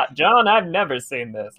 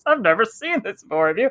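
First: Lightly voiced second commentator, understated; commentary partner. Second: Higher-pitched mock commentator; John Madden. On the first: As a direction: answer as the calmer partner in the booth. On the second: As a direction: play the baffled commentator asking his partner. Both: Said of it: "commentary with John Madden going".

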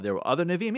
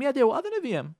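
First: "Nevi'im" lifted as a question; puzzled question. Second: "Yeah" pitched high, then falling; emphatic confirmation. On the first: Imagined listener questioning the rabbi's claim, puzzled. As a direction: ask it with "Nevi'im" rising at the end. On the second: Rabbi answering an imagined doubter, emphatic confirmation. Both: Acted.

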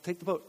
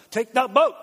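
First: Said in the usual way. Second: Loud, high, punched-out order; hammed-up shout at stubborn listeners; exasperated insistence. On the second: Jesus losing patience with refusing disciples, exasperated mock shout. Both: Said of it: "Jesus insisted".

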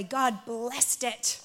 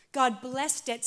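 First: Very slow, leaning on God; slow emphasis. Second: Said in the usual way. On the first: Shown as a demonstration. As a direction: draw out each word, God first.

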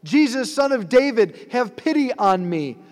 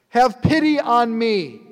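First: High, loud plea called across a crowd; crying out. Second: Higher and louder desperate plea; calling out more. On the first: Blind beggar crying out to Jesus, loud and high. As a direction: call out to him, begging for pity. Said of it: "he starts crying out". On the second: Blind man cries out to Jesus again, louder and more desperate. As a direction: cry it out harder, begging. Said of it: "he calls out all the more". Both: Acted.

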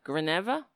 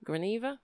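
First: "Graneva" with "neh" in the middle, questioning; unsure pronunciation. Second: "Graneva" with "nee" in the middle, higher and softer; alternative pronunciation. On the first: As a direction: say "Graneva" as gruh-NEH-vuh, tentatively. Trying out an unsure name. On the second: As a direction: try "Graneva" as gruh-NEE-vuh, questioning. Trying another pronunciation of name. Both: Real, not acted.

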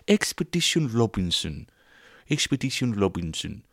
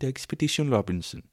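First: Swedish accent. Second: Higher, sing-song Swedish "Expedition Robinson"; playful Swedish accent, pitched up. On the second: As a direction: try again in a lilting Swedish accent. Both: Shown as a demonstration. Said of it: "Is that the Swedish accent?".

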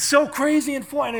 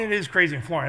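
First: High, loud weatherman shouting over wind; hammed-up live storm report; mock storm reporter. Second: Said in the usual way. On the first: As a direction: yell it like a reporter in a gale. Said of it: "the guy from the Weather Channel".

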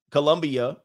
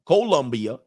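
First: Colombia with a quick "kuh" first syllable; reduced first vowel. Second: Colombia with a full "koh" first syllable; full O vowel. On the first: Host corrects himself on the country name, Colombia with unstressed "kuh". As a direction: say Colombia as "kuh-LUM-bia". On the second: Host corrects himself on the country name, Colombia with a rounded "koh". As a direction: say Colombia as "KOH-LUM-bia". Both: Shown as a demonstration.

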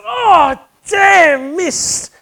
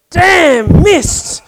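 First: Much higher, louder cry of annoyance; exasperated curse. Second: Higher, louder, booming God voice; God curses the missed lightning bolt, loud and high; voice from heaven. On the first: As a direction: yelp it out as the ball pops out. Golfer misses third putt. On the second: God's voice from heaven. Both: Retold or imitated.

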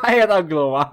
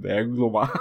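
First: Repeats Aia era gluma through a laugh, louder. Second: Said in the usual way. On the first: Real, not acted. Host repeats the joke to his cohost, laughing. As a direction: laugh out the punchline as you say it again.

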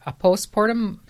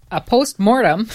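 First: Postmortem slipped to "post-portem"; stumbled word. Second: Postmortem said carefully with a clear m; louder, deliberate POST-MORTEM, near laughter; corrected word. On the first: Newsreader misreading the story, postmortem fumbled as "post-portem". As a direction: trip on postmortem, blurring the m into a p. Misreads, then says it over. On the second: Newsreader correcting the slip, postmortem said firmly and clearly. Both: Real, not acted.

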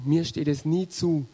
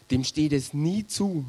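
First: Mir lifted and leaned on, then falling; "mir" pushed forward as the contrast word; stress on mir. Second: Said in the usual way. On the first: Shown as a demonstration. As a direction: put the weight on "mir".

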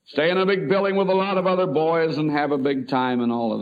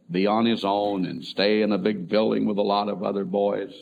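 First: Upbeat and higher, talking up a big adventure; cheerful selling it. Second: Said in the usual way. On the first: Retold or imitated. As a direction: make it sound like a wonderful treat for the boy. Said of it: "Let's talk about it like it's something wonderful". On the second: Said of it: "That's the way we talked it to him".

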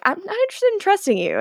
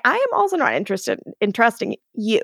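First: High-pitched, quick retort; imitating a dismissive snub; curt refusal. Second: Imitating a deliberate comeback with "am" stressed; emphatic retort. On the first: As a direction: rattle off a mock refusal, pitched up. Retold standoff, Kai refuses Damon. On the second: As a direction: stress on "am", measured retort at normal pitch. Damon retorts in retold standoff.

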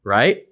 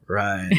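First: "Right?" asked with a rising question tune; "Right?" as a careful check before each turn. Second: "Right." answered softer, with a falling tune; a quiet, sheepish "Right." in reply; meek confirmation. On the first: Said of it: "Daniel would go". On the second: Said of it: "And I'd go". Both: Retold or imitated.

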